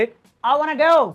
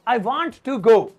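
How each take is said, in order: First: Want to is shortened to wanna. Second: Want to is said as two full words.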